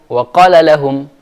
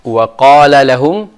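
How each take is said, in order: First: The vowel in qala is cut short. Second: The long vowel in qala is held out. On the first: The speaker calls it wrong. "Sekarang saya hilangkan matnya itu" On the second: The speaker calls it right. "Yang mat di situ adalah wa qala"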